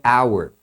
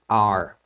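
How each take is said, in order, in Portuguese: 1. A palavra é dita na forma completa e cuidadosa. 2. A palavra é encurtada para soar como 'are'. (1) "A pronúncia normal é our" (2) "de uma forma rápida e elas pronunciam como are"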